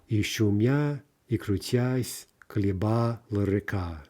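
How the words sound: It is chopped into feet with each beat marked.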